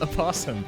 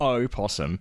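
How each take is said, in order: First: The opening vowel is weak, like 'a possum'. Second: The opening o-vowel is clearly and distinctly pronounced. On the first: It sounds like the Australian animal. The speaker calls it wrong. "The way you said it" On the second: It marks the American animal, not a possum. The speaker calls it right. "I make the the big distinction of opossum"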